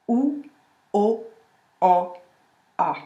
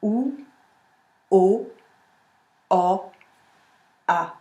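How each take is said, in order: First: "A" pushed to the back of the throat after a badly made "O"; wrong O, A at back. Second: "A" placed forward behind the teeth after a clear "O"; corrected vowels. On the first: Coach demonstrates the bad version for contrast. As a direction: let the A drop back into the throat. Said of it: "je vais mal réaliser mon O". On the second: Coach plays the corrected version for contrast. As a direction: set the A back forward, clean and placed. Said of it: "je vais le recaler comme ça". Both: Shown as a demonstration.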